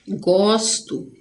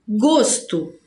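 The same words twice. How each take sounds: First: Gosto with an open ó, like "góstu". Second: Gosto with a closed ô, like "gôsto". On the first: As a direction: say Gosto with the stressed o open, as if it had an acute accent. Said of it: "A gente fala com esse agudinho aqui". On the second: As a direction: say Gosto with the stressed o closed, as the noun. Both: Shown as a demonstration.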